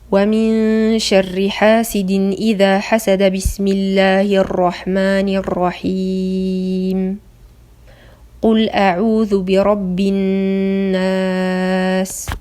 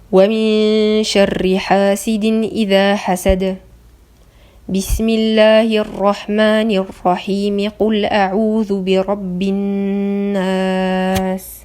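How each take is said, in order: First: The pause falls just after the Bismillah phrase. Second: The pause falls just before the Bismillah phrase. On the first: The speaker calls it wrong. "on enchaîne le dernier verset de sourate Al-Falaq avec la Basmala, puis il y a un arrêt entre la Basmala et le premier verset" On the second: The speaker calls it right. "il y a un arrêt entre le dernier verset de sourate Al-Falaq et Al-Basmala, mais il y a une liaison entre la Basmala et le premier verset"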